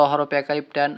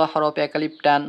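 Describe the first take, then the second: No difference in how they are said.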